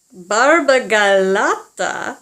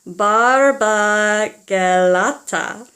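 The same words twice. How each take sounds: First: Barbagalata drawn out slowly, louder, syllable by syllable; Barbagalata rolled. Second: Barbagalata very slowly, louder, each syllable held; Barbagalata, slow and grand; Barbagalata slow demo. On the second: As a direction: model Barbagalata for the kids to repeat. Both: Shown as a demonstration. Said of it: "Can you say that, kids?".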